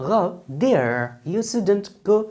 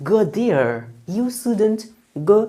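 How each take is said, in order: The two takes are said the same way.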